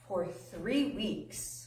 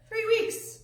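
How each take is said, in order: First: Very slow, softer "three weeks"; drawn-out emphasis. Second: Squeaky high "Three weeks"; high-pitched disbelief. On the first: Preacher tells how long disciples waited, drawn-out emphasis. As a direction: stretch out "three weeks" to feel the wait. Stressing the length of the wait. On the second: Preacher marvels at the long wait, high-pitched repeat. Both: Real, not acted.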